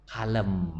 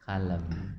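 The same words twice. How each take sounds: First: Calm. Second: Calm again. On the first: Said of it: "Kalau Nabi Muhammad, Pak". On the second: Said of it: "Pokoknya Bapak". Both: Shown as a demonstration.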